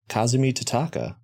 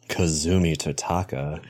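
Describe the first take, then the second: First: The name is said in an ordinary voice. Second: The name is said in a put-on voice.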